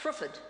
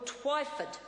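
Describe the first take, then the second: First: The name begins with a 'tr' sound. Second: The name begins with a 'tw' sound. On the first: The speaker calls it wrong. "not Trifford" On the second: The speaker calls it right. "correct the Minister's pronunciation of Phil Twyford"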